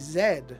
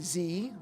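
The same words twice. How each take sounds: First: The letter is said the non-American way. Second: The letter is said the American way. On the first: "They say Z, which I have to admit makes a lot of sense to me" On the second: "like Americans do"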